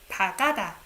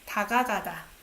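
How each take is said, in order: First: The syllable 'ga' is said only once. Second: The syllable 'ga' is said twice in a row. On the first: The speaker calls it wrong. "I'm gonna just pronounce once" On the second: The speaker calls it right. "you need two syllable the same thing"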